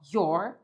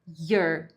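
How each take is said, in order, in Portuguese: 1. A vogal soa como um O. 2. A vogal soa como um A. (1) "você pode fazer com som de O" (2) "mas você pode fazer com som do A"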